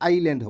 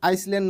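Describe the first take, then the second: First: No s sound is pronounced in the middle. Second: An s sound is pronounced in the middle. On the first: The speaker calls it right. "এছ টো silent থাকে, গতিকে আইল্যান্ড হ'ব।" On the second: The speaker calls it wrong. "আইসল্যান্ড নকৈ"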